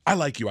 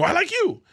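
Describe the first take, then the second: First: Said in the usual way. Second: Eager echo. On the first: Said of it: "and then he goes". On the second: Retold or imitated. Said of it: "I go".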